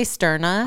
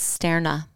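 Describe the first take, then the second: First: Sterna said STIR-nuh, with a Midwest r. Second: Sterna said STAIR-nuh, first vowel like air; corrected Sterna. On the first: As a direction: Sterna with the first syllable like stir. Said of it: "I wanna say Sterna because of my Midwest accent". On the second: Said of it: "but it's Sterna". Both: Shown as a demonstration.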